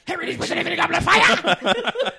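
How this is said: It is said aggressively and forcefully.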